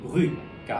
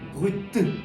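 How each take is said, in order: First: The word ends without any T sound. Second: The word ends with a strong, forced T sound. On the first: "잘못 알고 계시는 분들이 되게 많은데 발음이 브리가 아니라" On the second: "막 이렇게까지 하실 필요는 전혀 없는 거고요"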